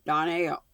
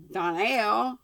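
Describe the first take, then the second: First: "Donnell" said with a falling tune, first sound dropped; name tried differently. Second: "Donnell" said higher and louder with a rising tune; name tried with emphasis. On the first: Reader retrying the name, falling. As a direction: settle "Donnell" down with a falling close. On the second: Reader testing how to say the name, rising. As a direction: try "Donnell" with a lifted, rising stress. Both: Shown as a demonstration. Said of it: "right emphasis on the correct syllable".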